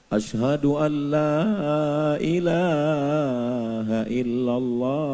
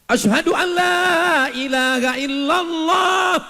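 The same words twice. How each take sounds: First: It is said softly and gently. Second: It is called out loudly.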